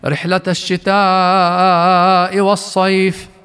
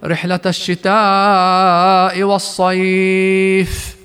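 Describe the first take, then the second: First: The last word is short, ending with a faint i. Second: The last word's vowel is lengthened, ending in silence. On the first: "فبروم الكسرة في كلمة الصيف انتفى مد اللين فيها" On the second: "بوقف سكون دون روم يجب حينها أن نعطيها مدها من حركتين إلى 4 إلى 6 حركات"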